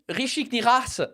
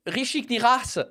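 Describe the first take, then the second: First: The name is said with a French accent. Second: The name is said with a French accent.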